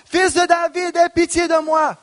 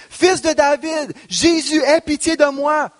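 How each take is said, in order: First: Much higher, desperate shout; crying louder. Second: High, pleading cry for mercy. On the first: Beggar shouting over those silencing him, desperate. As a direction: cry out even harder over the crowd. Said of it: "il criait beaucoup plus fort". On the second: Blind beggar calling out to Jesus, pleading cry. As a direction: call out to Jesus, begging. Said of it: "se mit à crier". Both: Acted.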